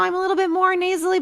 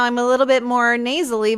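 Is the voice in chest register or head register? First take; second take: head; chest. First: It is spoken in a higher, lighter head voice. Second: It is spoken in a lower, fuller chest voice. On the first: "but I'm in my head voice" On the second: "but I'm in my chest voice"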